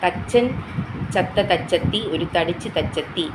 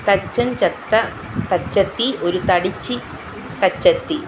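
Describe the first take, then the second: First: It is said quickly at high speed. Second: It is said slowly and carefully.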